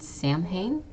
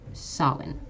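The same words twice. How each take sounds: First: It is sounded out the way it looks. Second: It is said unlike the way it looks. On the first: The speaker calls it wrong. "you might think this is pronounced" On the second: The speaker calls it right. "This is actually"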